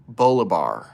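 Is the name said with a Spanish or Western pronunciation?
Western. The name is said with a Western pronunciation. "If it's Western pronunciation"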